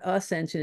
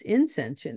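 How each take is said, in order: First: Said in the usual way. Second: Inscension, starting with a clear in- instead of a-; inscension with an in- sound. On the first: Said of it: "it's inscension". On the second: Shown as a demonstration. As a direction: stress the in- of inscension against ascension. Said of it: "It's not ascension".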